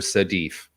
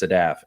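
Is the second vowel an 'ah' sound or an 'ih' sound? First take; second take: ih; ah. First: The second vowel is a short 'ih' sound. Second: The second vowel is an open 'ah' sound. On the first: This is how other people mistakenly say the name. The speaker calls it wrong. "everyone calls her Sadif. There are no e's in her name at all" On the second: This is how the name is really said. The speaker calls it right. "Her name's Sadaf, S A D A F"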